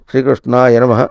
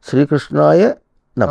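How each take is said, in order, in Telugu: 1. పదాలు 'Krishna', తర్వాత 'yanamah' గా, లయబద్ధంగా విభజించబడ్డాయి. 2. పదాలు 'Krishnaya', తర్వాత 'namah' గా విభజించబడ్డాయి.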